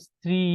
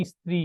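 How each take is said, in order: First: Said in the usual way. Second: "স্ত্রী" with an i sound put before the s; added initial vowel. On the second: Shown as a demonstration. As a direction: say "স্ত্রী" as i-stri, vowel first. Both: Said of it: "থেকে যদি এটা হয়".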